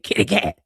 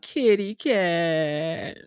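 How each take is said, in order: First: It is said in an angry tone. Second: It is said in a proud tone. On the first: "say it mad" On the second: "Say it like you proud"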